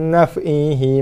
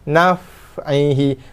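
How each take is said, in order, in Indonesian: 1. Bunyi f melepaskan terlalu sedikit nafas dan suara. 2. Bunyi f melepaskan banyak nafas dan suara. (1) "Tak mau... Tak cukup lepas nafas, tak cukup lepas suara" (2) "Jaga fa, lepas nafas, lepas suara"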